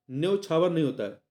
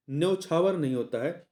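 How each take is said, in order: Both takes have the same delivery.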